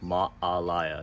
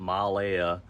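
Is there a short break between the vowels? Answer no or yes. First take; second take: yes; no. First: A short break separates the two middle vowels. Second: The vowels run together without any break. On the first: The speaker calls it right. "So there's a pause" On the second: The speaker calls it wrong. "It's not Malaya"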